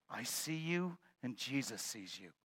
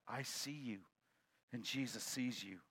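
First: A hint of a hushed voice in the dark; lightly voiced unseen speaker; mysterious voice. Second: Quiet voice. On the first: Unseen voice speaks to the burglar, a touch hushed. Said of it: "he hears a voice say". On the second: Acted. Unseen voice repeats to the burglar, softer. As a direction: say it hushed from the dark. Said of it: "a voice comes back".

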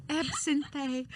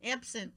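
First: Absinthe said with an extra "ay" ending; jokey "ab-sin-THAY" for Absinthe; playful mispronunciation. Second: Said in the usual way. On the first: Shown as a demonstration. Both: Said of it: "Is that how you say it?".

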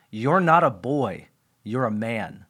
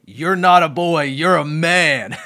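First: Hushed, heartfelt quote of a dad; earnest fatherly words. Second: Laughing it out, louder and slowing at the end; amused at how corny it sounds; chuckling through the dad's line. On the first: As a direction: let it land gently and seriously. Dad's solemn words retold. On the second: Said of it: "it sort of sounds funny to even say it". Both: Retold or imitated.

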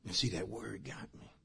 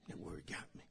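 First: Said in the usual way. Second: Whispered, drawn inward; hushed whispered repeat. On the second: Real, not acted. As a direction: breathe it as a confession.

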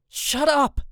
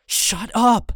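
First: Shouted shut up. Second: High, loud frantic shout; wild shout. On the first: Boy waves his arms and shouts at his family. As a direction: tell them off sharply. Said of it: "wave my arms and say". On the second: Boy yells wildly at his stunned family. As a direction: yell it like a wild man. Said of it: "wave my arm like a wild man". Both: A narrator's reading.

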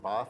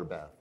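First: Bath with a long "ah", as in father; "ah" vowel in Bath; British long A. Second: Bath with the short "a" of cat; short front vowel in Bath, American style. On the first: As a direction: say Bath as "Bahth", British style. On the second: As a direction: say Bath to rhyme with math. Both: Shown as a demonstration. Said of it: "Is it Bath or Bath".

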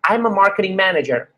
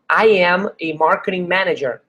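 First: "I'm" run together as one quick syllable, no separate am; contracted I'm. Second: Said in the usual way. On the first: Shown as a demonstration. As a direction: glide "I'm" into one beat. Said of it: "foca no "I'm". ("I'm" contraído numa sílaba só) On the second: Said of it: "você não vai falar "I am".

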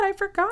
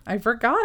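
First: "I forgot" said higher, sing-song. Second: Said in the usual way. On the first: Shown as a demonstration. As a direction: lift the pitch on I forgot.

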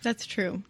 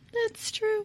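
First: Said in the usual way. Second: Playful high-pitched repeat of a concession; high squeaky echo. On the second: Real, not acted. Conceding a point about the candy commercial, comically high. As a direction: jump far up in pitch.

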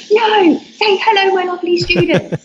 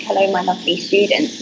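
First: Eager fan demand. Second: Said in the usual way. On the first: Retold or imitated. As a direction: play the excited followers begging for it. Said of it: "I got a ton of messages saying". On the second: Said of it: "I started saying, like".

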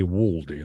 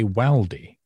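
First: Waldy with a rounded 'aw', 'WAWL-dee'; posh Waldy. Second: Waldy with a short flat 'a', as in 'wall' turned to 'wal'; northern Waldy. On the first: Retold or imitated. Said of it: "You're very posh". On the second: Shown as a demonstration. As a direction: say Waldy the northern way, 'WAL-dee'. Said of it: "because I'm from the north".

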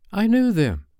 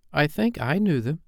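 First: Put-on high, emphatic child's brag; annoying boast. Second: Put-on higher, mildly uncertain child's voice; rather doubtful. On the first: John annoying the other boys, boastful. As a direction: show off to needle the others. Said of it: "John said to annoy the others". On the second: Michael following John's claim, rather doubtful. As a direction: say it with some doubt. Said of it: "said Michael rather doubtfully". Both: A narrator's reading.

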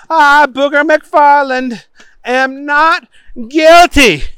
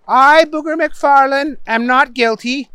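First: High, loud proclamation; oath-taking Booger. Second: High-pitched model sentence; upset judge prompting. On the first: Booger repeating to the judge, loud and overblown. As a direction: proclaim the plea grandly at high pitch. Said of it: "said Booger". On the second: Judge giving Booger words to repeat, high but restrained. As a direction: prompt him with strained patience. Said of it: "The judge was getting upset". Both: A narrator's reading.

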